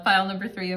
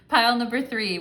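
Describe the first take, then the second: First: Said in the usual way. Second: Louder, higher welcome to pile three; bright greeting. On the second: Shown as a demonstration. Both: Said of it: "restarts the greeting".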